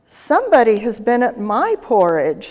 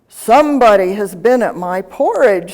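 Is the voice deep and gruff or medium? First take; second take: medium; deep gruff. First: It is said in a medium, middle-sized voice. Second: It is said in a deep, gruff voice.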